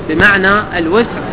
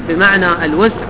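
Both takes have the same delivery.

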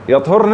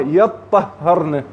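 First: It has light, single consonants without doubling. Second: It has heavy, doubled consonants. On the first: The menstruation has simply ended. "يطهرن يعني هنا مجرد جسم انتهاء الحيض" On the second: The women have performed the act of purification. "أما يطهرن، هاي يقمن بعملية التطهير"

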